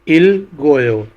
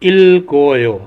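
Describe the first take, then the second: No difference in how they are said.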